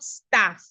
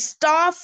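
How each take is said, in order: First: The vowel is short and closer. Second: The vowel is long and open. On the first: The speaker calls it wrong. "not staff" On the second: The speaker calls it right. "the long R. Your jaw drops when you articulate the R"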